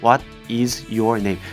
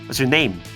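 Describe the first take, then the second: First: Each word is said separately, one by one. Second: The words run together as one unit.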